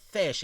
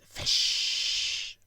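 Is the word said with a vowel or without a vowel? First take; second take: with vowel; without vowel. First: It is said with its normal vowel sound. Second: It is said with the vowel removed entirely. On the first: "instead of fish" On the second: "you just remove the I from fish"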